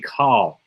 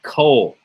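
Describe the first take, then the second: First: The vowel is an a sound. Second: The vowel is an o sound. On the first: The speaker calls it wrong. "It should be Kal" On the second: The speaker calls it right. "it's always pronounced with an O sound"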